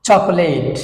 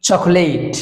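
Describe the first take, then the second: The two takes are said the same way.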